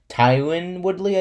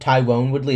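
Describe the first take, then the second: First: The first name is said like 'Tyron'. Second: The first name is said like 'Tyrone'. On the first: The speaker calls it right. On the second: The speaker calls it wrong. "It's not"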